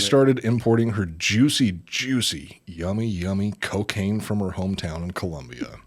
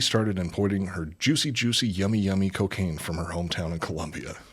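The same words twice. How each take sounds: First: It is said at a slower pace. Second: It is said at a fast pace.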